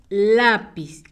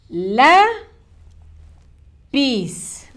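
First: Said in the usual way. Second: "La", long pause, then "pis"; syllable by syllable. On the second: Shown as a demonstration. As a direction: draw out "La" and "pis" as separate syllables. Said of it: "Vamos a escribir las sílabas".

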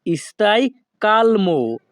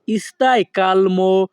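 First: Said in the usual way. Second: Stai calmo said slowly, word by word; slow it down so learners can repeat; careful slow demo for students; slow teaching pace. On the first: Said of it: "আমি প্রত্যেকটি বাক্য দুই থেকে তিনবার বলার চেষ্টা করব". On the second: Shown as a demonstration. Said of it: "দুই থেকে তিনবার বলার চেষ্টা করব".

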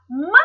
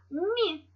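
First: "М" as a hard, unpalatalized m. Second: "Мі" with a palatalized m; soft M. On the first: Teacher contrasting sounds for pupils, "М" said hard. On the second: Teacher showing pupils the softer sound, "Мі" palatalized. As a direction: say "Мі" soft, tongue raised toward the palate. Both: Shown as a demonstration. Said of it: "Більше так м'якіше кажемо".

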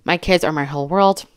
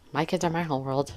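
First: Said in the usual way. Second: Softly repeated. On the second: Shown as a demonstration. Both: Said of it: "What's wrong with that?".

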